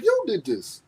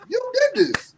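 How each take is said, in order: First: Said in the usual way. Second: YOU DID THIS pitched way up high; high acted blame; high-pitched accusation.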